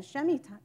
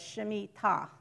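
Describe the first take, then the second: First: Shemitah with the stress taken off the final syllable; misplaced stress. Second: Shemitah with the stress on the final "tah"; stress on last syllable. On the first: Retold or imitated. Teacher imitating a common mispronunciation, Shemitah stressed before the last syllable. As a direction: say Shemitah quickly, stressed early instead of on "tah". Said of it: "say it with the wrong s-, emphasis".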